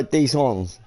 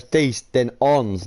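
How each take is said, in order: First: "Dix ons" imitated as two separate words, flat tone; mocking "Dix ons" with a falling end; mock mispronunciation. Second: "Dix" then "ons" said apart, each word clear; correct French. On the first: Friend mocks the French number, saying "Dix ons" wrongly. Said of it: "Did you just go". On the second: Shown as a demonstration. Correcting a friend's French, saying "Dix" then "ons" clearly. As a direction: teach the right way: "Dix", pause, "ons". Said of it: "It goes".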